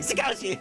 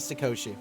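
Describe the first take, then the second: First: The name is screamed very loudly. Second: The name is said at normal volume. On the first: The speaker calls it right. "I love screaming Satoshi every time I have to say his name" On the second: The speaker calls it wrong. "You you can't just say Sakoshi"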